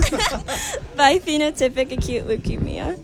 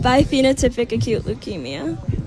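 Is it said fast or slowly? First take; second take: slowly; fast. First: It is said slowly and carefully. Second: It is said at normal, quick speed.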